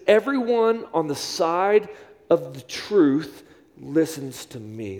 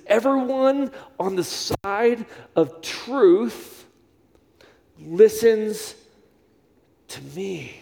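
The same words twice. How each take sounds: First: Slow, deliberate reading of Jesus's words; measured scripture quote; slow quoted scripture. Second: Very slow, each word weighted, "listens" lifted; slow emphatic scripture repeat; slower emphatic repeat. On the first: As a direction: lay each word down slowly for them to memorize. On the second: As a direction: drag it out so it sticks. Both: Shown as a demonstration. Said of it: "I want you to memorize this".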